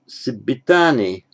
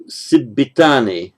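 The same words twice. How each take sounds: First: Teacher modelling the Pali word Sibbitani; careful model pronunciation. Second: Said in the usual way. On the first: Shown as a demonstration. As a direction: say Sibbitani again so students can copy it. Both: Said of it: "so Sibbitani".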